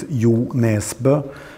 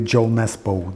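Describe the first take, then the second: First: The name is said with Norwegian sounds. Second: The name is said with English sounds. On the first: This is how it is said at home. "In Norwegian, it's" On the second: This is how most people abroad say it. "when I go to abroad, it's it's basically"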